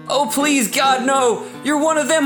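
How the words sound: It is spoken in a general American accent. "Yeah, that's my American"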